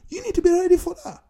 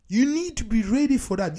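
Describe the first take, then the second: First: Higher, louder and fast, punching "be"; urgent push on "be"; emphatic. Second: Said in the usual way. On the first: Real, not acted. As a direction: hammer home "you need to be ready". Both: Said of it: "repeats the point".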